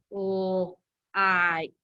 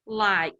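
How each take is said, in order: First: "Like" split into a held l, then a long ike; stretched l and long eye vowel in "Like"; sounded out. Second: Said in the usual way. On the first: Shown as a demonstration. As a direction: sound out "Like" slowly, sound by sound. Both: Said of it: "So that says the I sound".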